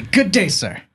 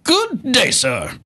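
First: Dismissive Good day, sir; signoff catchphrase. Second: Hammed-up high Good day, sir; theatrical catchphrase. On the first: Pretend. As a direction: say it like a curt farewell. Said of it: "And to that, I say". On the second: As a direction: deliver it like a huffy gentleman. Cohost echoes catchphrase theatrically.

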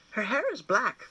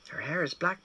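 First: Put-on boy's voice. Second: Mother's voice. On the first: Boy and mother each say it. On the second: Mother echoes the boy. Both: A narrator's reading.

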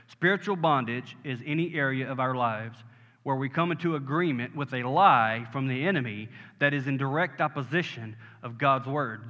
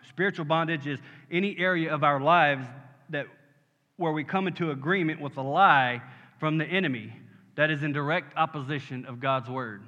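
First: Deliberate, lower-pitched definition; slower repeat. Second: Said in the usual way. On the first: Shown as a demonstration. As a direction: say it more slowly so it sinks in. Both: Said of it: "Let me say it again slower".

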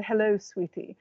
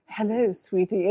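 First: Said in the usual way. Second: Lightly imitated stately, sultry greeting; a hint of a regal, seductive woman; stately, sexy voice. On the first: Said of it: "turned to her and said". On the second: Retelling an actress's reply to a fan, stately and sexy. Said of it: "her very stately, exquisitely sexy voice".

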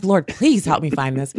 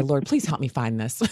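First: Louder, curt request with a touch of irritation; hammed-up impatient plea; mock frustrated demand. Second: Mad. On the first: Host mimicking herself frustrated while searching. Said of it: "I'm like". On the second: Retold or imitated. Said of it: "Just like that. Mad".

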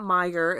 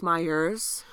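First: "Meijer" ending cleanly on the R; "Meijer" as the bare store name; Meijer without S. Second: "Myers" ending in a Z-like S; "Myers", the Michigan way with extra S; added final S. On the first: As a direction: say "Meijer" with no S added. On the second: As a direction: tack an S onto the end of "Myers". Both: Shown as a demonstration. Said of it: "we add S's onto things".

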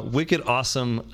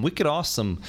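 First: Slower Boston accent, stretching wicked awesome; Boston accent retry. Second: Terrible Boston accent. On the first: Host retries his Boston accent for a listener, slow. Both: Shown as a demonstration. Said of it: "that's a terrible Boston accent".

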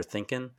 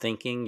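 First: "thinking" said as thinkin'; dropped-g Southern ending. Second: Said in the usual way. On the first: Shown as a demonstration. Explaining his old accent, dropped g on "thinking". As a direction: drop the g at the end of "thinking". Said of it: "you're thinking". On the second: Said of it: "so you're not thinking, you're thinking".

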